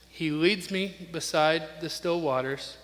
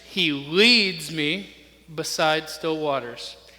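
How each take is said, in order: First: No single word is stressed. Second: The word leads is stressed.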